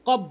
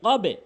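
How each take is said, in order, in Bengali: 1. শেষের b সাধারণভাবে থেমে যায়, কোনো ফিরে আসা ছাড়া। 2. শেষের b নিচু প্রতিধ্বনি দিয়ে ফিরে আসে। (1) "অধিকাংশ লোক ভুল বলে, কব বলে" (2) "কবে সাউন্ডটি দেখেন কোন দিকে, নিচের দিকে"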